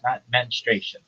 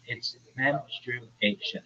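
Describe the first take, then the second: First: The word is said with three syllables. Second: The word is said with four syllables. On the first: The speaker calls it wrong. "That's not right" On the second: The speaker calls it right. "It's four syllables"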